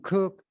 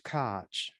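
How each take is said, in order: First: The name sounds like the word cook. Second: The name ends with a ch sound.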